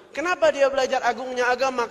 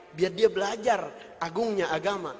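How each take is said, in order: First: Louder rhetorical question, higher on "Kenapa"; preacher raising the room; rising preach. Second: Said in the usual way. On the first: Acted. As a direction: punch "Kenapa" and lift the whole question. Same point repeated as rhetorical question.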